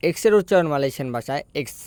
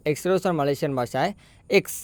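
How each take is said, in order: Both takes have the same delivery.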